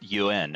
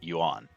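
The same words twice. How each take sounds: First: The vowel sounds like an E. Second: The vowel sounds like an A. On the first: The speaker calls it right. "the A in Yuan is pronounced more like an E" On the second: The speaker calls it wrong. "and not Yuan"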